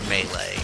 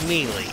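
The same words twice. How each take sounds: First: The word is said with 'ay' vowel sounds. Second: The word is said with 'ee' vowel sounds. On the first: The speaker calls it wrong. "There's no A in melee. Why the fuck would you pronounce it melee?" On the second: The speaker calls it right. "It's melee. With two E's"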